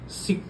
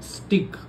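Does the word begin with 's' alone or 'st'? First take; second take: s; st. First: The word starts with s, with no t sound. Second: The word starts with s followed by t. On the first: The speaker calls it wrong. "सिक नाही" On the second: The speaker calls it right.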